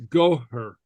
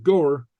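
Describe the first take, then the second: First: Goher with a breathy h between the syllables, go-her; goher, two fast syllables with a breath between; correct pronunciation. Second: Goer said smoothly, with no h sound between the syllables; wrong pronunciation. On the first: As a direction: say goher with a clear h in the middle. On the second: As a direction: say goer the wrong way, running straight from go into er. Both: Shown as a demonstration. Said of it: "not goer, but goher".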